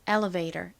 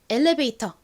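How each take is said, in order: First: The vowel after the L sounds like uh. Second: The vowel after the L sounds like e. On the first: "미국식 원어 발음으로는 ... 이렇게 어에 가까운 소리가 납니다" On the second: "이렇게 에 소리로 발음하거나"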